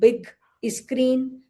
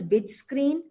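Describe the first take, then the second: First: The first word ends in a hard g sound. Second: The first word ends in a j sound. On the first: "You will hear big screen" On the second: "they may call this bij because they don't have the g"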